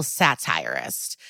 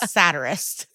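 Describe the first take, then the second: First: "satirist" said as sa-TIRE-ist; mispronouncing satirist. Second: "Satirist" said as SAT-er-ist; corrected pronunciation. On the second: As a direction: stress the first syllable of "Satirist", short a. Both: Real, not acted. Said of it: "both of my options were wrong".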